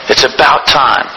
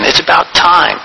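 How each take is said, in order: First: The word time does not carry the main stress. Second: The word time carries the main stress. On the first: It is high time to get busy working. "The other one is more about keeping busy" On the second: The point is how the time is spent. "The emphasis is on time"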